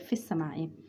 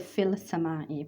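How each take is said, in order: First: The L is merged into a doubled S. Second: A clear L sound comes before the S. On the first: The speaker calls it right. "we say fis samai" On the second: The speaker calls it wrong. "we don't say fil samai"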